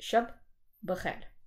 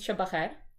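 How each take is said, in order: First: The two words are said as separate words. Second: The two words merge into one word. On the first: The speaker calls it right. "maar het is shabbeger" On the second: The speaker calls it wrong. "Het is niet shabbeger"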